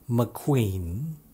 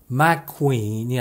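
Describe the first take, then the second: First: The first syllable is unstressed with a reduced vowel. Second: The first syllable is stressed with a full vowel. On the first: The speaker calls it right. "실제 발음은 스티브 맥퀸입니다" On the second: The speaker calls it wrong. "맥퀸이 아니라"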